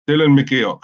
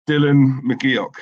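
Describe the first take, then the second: First: "Dylan McGeoch" said firmly and louder, in one go; confident name attempt. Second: Slow, syllable by syllable "Dylan McGeoch"; careful name attempt. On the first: Finally nailing the viewer's cousin's name, firm and louder. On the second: Reading a viewer's cousin's name, slowly sounding it out. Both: Shown as a demonstration. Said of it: "I'm trying to".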